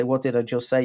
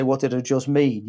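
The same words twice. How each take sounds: First: "say" is the key word, leaned on lightly at the end; stress on say. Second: "mean" stressed and falling at the end. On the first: Wife quizzing her husband, light stress on "say". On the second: Wife testing whether he understood, stress on "mean". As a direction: lean on "mean" to set it against "say". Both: Retold or imitated.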